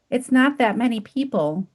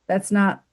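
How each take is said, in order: First: It is said in a whiny voice. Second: It is said in a plain voice.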